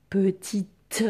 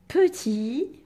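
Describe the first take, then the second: First: "petite" with the final t strongly released; audible final t. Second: "Petit" ending on an open i, no final t, louder; silent final t. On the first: Teacher showing the feminine reveals the t, final t sounded. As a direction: make the last t of "petite" ring out. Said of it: "et on l'entend". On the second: Teacher dictating petit with its ghost letter, final t silent. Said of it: "quelle lettre fantôme on met". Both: Shown as a demonstration.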